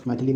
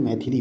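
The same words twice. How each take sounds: First: मैथिली with uh after th; wrong middle vowel. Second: मैथिली with i after th; correct middle vowel. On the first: Teacher repeating the mistake, middle vowel uh. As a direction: say मैथिली as mai-tha-li. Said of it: "नहीं होता है". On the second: Teacher repeating the correction, middle vowel i. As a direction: say मैथिली as mai-thi-li. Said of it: "होता है". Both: Shown as a demonstration.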